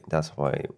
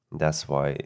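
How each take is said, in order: Both takes have the same delivery.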